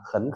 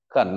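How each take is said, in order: First: The syllable has a rising tone. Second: The syllable has a low dipping tone. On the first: "Khẩn đọc với khảo đọc là khấn khảo" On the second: "Thanh ba trước phải đọc thành thanh. Thanh hai"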